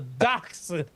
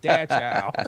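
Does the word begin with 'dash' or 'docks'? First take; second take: docks; dash. First: The word begins with 'docks' and ends 'hund'. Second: The word begins with 'dash' and ends 'hound'. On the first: The speaker calls it right. "It's a dachshund" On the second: The speaker calls it wrong. "you don't call this dog a dash hound"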